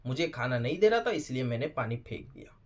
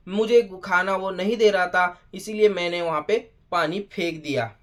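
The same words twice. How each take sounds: First: Low, quiet mocking repeat; mocking echo. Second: Said in the usual way. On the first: Reviewer repeats Chahat's excuse for throwing water, quietly mocking.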